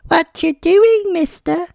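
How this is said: It is said in a silly, childish voice.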